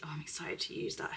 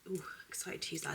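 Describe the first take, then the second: First: Said in the usual way. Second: "excited" breathed out as a fast whisper. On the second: Shown as a demonstration. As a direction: whisper it quickly, like a secret.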